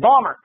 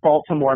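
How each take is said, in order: First: The city name is squeezed into two syllables. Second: The city name is said with every syllable. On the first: The speaker calls it right. "you say Balmer" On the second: The speaker calls it wrong. "you don't say Baltimore"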